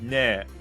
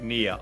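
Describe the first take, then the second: First: The name rhymes with the word hair. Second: The name rhymes with the word ear. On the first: "If I try and say it the other way, it's Nair" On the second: "if I try and say it like that, it sounds like near"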